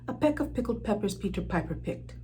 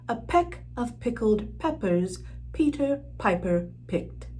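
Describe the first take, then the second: First: It is said at a faster pace. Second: It is said at a slower, moderate pace.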